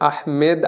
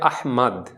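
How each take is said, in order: First: The second vowel sounds like 'e'. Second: The second vowel sounds like 'a'. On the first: The speaker calls it wrong. "আসলে আহমেদ আরবিতে কোনো উচ্চারণ হয় না" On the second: The speaker calls it right. "উচ্চারণটা হয় আহমাদ"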